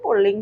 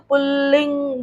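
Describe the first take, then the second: First: The word is said quickly in a natural flow. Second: The word is said slowly, syllable by syllable. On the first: "जल्दी बोलते हैं, अपनी flow में बोलते हैं" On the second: "बहुत धीरे से चलता हुआ जाएगा"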